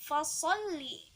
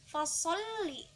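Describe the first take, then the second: The two takes are said the same way.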